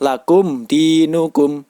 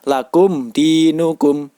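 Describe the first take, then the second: First: The m is pronounced clearly. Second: The m is pronounced clearly.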